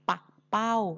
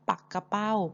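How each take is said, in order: First: The word is said with two syllables. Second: The word is said with three syllables. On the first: It names a kind of kite. "ส่วนว่าวนั้นเราจะออกเสียงว่า" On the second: It names a kind of fish. "ต้องอ่านว่าปักกระเป้า"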